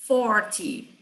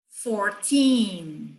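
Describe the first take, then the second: First: "forty" short, strong first syllable, falling -ty; stress on FOR. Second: "fourteen" with long, stressed second syllable; stress on TEEN. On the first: Teacher contrasting side by side, stress on FOR. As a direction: hit the FOR of "forty", drop the -ty. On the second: Teacher contrasting side by side, stress on TEEN. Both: Shown as a demonstration. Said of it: "lado a lado".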